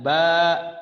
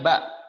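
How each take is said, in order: First: The vowel is held long. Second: The vowel is short. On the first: "maka baknya dipanjangkan ba" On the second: "ba harusnya ba"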